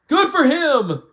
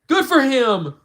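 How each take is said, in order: The two takes are said the same way.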